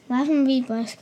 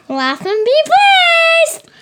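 First: It is said in a sad tone. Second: It is said in a happy tone.

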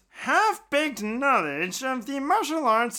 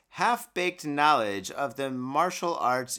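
First: It is read in a put-on nerdy voice. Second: It is read in a plain, normal voice.

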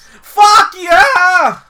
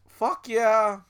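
First: It is said loudly, with lots of energy. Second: It is said weakly, with little energy.

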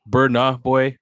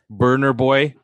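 First: The first word ends without an R sound. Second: The first word ends with a hard R sound. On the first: The speaker calls it right. "I apologize" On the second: The speaker calls it wrong. "don't add the hard R"

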